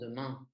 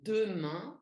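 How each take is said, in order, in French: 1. L'accent tombe sur la dernière syllabe. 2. La première syllabe est accentuée et allongée. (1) "on prononce demain" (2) "j'insiste sur le E"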